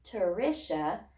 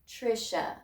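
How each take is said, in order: First: An extra vowel separates the T and the R. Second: The T and R blend together without a vowel. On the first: The speaker calls it wrong. "I'm not going to say Turisha" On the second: The speaker calls it right. "I have to adjust my pronunciation to say tr"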